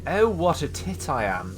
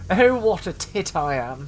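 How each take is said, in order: First: A lightly plummy posh English self-rebuke. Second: Louder, higher posh English exclamation, rising at the end; hammed-up posh English. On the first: Acted. Gamer scolding himself in a mock posh English voice. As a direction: put on a touch of upper-class English. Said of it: "I said that in such a posh voice". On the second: Gamer repeating his insult in an exaggerated posh English voice. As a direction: ham up the posh English accent on purpose. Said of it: "in such a posh voice".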